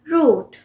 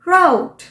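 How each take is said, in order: First: It rhymes with 'boot'. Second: It rhymes with 'out'. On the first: "हम बोलते हैं रूट" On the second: "American इसी word को कैसे pronounce करेंगे? राउट"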